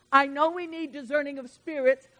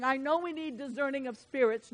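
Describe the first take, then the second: First: "I know we need discerning of spirits" pressed out louder; second time, preached harder; louder repeat. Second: Said in the usual way. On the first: Shown as a demonstration. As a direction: drive the repeat home with more volume. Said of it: "repeated with more force". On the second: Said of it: "repeats the line louder".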